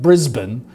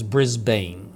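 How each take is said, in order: First: Brisbane is said with an Australian pronunciation. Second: Brisbane is said with a non-Australian pronunciation. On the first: "as they say" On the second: "The real way to pronounce that is Brisbane"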